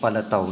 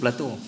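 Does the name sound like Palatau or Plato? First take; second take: Palatau; Plato. First: The name is said in a modified form. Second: The name is said in its original form. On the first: This is how the current generation says it. "Generasi ini sebut Palatau" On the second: This is the older way that people no longer use. "dia tak sebut Plato"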